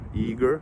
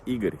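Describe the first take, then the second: First: The name is said with an American pronunciation. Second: The name is said with a Russian pronunciation. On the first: The speaker calls it wrong. "does it sound like American Igor?" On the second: The speaker calls it right. "But it's Igor"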